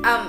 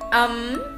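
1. Âm này có thanh nặng, thấp và ngắn. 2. Âm này có thanh sắc, cao và lên. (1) "nặng" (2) "sắc"

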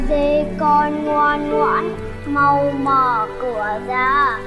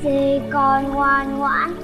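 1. Giọng trầm, khàn và ồm ồm. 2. Giọng nhẹ hơn, cố tình giả nhẹ nhàng. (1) "giọng ồm ồm" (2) "nó giả giọng nhẹ nhàng hơn"

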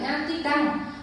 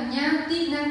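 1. Âm tiết cuối bắt đầu bằng âm d. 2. Âm tiết cuối bắt đầu bằng âm n. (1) "chứ không phải nha ti đăng" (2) "nha ti năng chứ không phải"

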